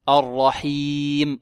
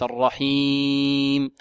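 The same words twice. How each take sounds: First: The word is said clearly, without nasal resonance. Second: The word is said with a nasal resonance. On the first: The speaker calls it right. "الرحيم وليس" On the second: The speaker calls it wrong. "عندك صوت من الأنف"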